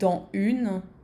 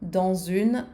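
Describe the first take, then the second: First: No z sound links the two words. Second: A z sound links the two words. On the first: The speaker calls it wrong. "rather than" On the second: The speaker calls it right. "the little Z that you hear in dans une ... it's going to be easier to say"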